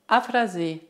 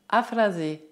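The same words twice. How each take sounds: The two takes are said the same way.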